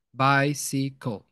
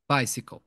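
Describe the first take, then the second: First: Very slow bicycle, each syllable spaced: bi-cy-cle. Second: Said in the usual way. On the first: Shown as a demonstration. Teacher spacing out syllables for students, very slow. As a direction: stretch bicycle out, one syllable at a time. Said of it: "o espaço da, das sílabas". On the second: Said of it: "espaço da, das sílabas".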